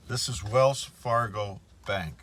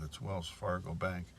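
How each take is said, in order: First: This is Wells Fargo Bank, louder with weight on Wells; name the bank loud so everyone hears; emphatic call-out. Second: Said in the usual way. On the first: Real, not acted. Naming the bank for viewers, emphatic and louder. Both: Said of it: "I want everybody to know that".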